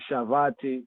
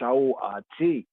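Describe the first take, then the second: First: The middle consonant sounds like a v. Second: The middle consonant sounds like a w. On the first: This is how it is said in modern Hebrew. The speaker calls it wrong. "Some say Shavati, modern Hebrew" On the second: This follows the ancient vowel pointing. The speaker calls it right. "the ancient pointing brings out the force"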